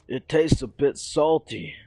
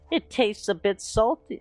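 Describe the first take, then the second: First: It is said in a plain, normal voice. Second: It is said in a put-on character voice.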